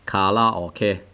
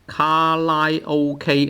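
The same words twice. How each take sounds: First: It is said with Japanese-style sounds. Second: It is said as Cantonese syllables, ka-lai-o-k. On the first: "Karaoke, which is Japanese" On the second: "in Hong Kong, we translate it into something like karaoke"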